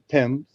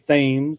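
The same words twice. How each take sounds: First: It is said the British way. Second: It is said the Connecticut way.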